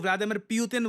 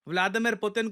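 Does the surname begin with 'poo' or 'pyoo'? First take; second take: pyoo; poo. First: The surname begins with a 'pyoo' sound. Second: The surname begins with a plain 'poo' sound. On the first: The speaker calls it wrong. "Vladimir प्यूतिन बोल रहे होते हैं" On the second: The speaker calls it right. "Vladimir पुतिन को"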